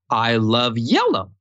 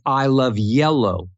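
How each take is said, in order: First: The pitch jumps up sharply at the end. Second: The pitch rises only slightly at the end. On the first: It sounds like a question. The speaker calls it wrong. "don't take gigantic, big interval jumps for the last" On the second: It sounds like a statement, not a question. The speaker calls it right. "No, it's"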